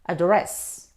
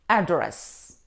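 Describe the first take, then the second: First: The stress is on the second syllable. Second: The stress is on the first syllable. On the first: It means to speak directly to someone. "If we stress on the second syllable, it's a verb" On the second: It names where someone lives or works. "If we stress on the first syllable, it's a noun"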